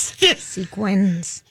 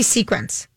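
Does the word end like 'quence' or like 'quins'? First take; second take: quins; quence. First: The word ends with a 'quins' sound. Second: The word ends with a 'quence' sound. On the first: The speaker calls it right. "opposed to sequins" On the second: The speaker calls it wrong. "I say sequence"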